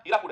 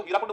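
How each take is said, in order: First: हीराकुड with no n before the final d; corrected dam name. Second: हीराकुंड with a nasal n before the final d; mispronounced dam name. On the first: Teacher correcting students on the dam's name, हीराकुड pronounced without the n. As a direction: say हीराकुड, ending in plain -kud. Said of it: "पर हीराकुंड नहीं है ना, हीराकुड है". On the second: Teacher quoting what many people call the dam, mispronounced as हीराकुंड with an n. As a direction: say हीराकुंड, ending in -kund. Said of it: "पर हीराकुंड नहीं है ना". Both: Shown as a demonstration.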